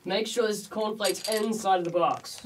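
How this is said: It is said with strong emotion.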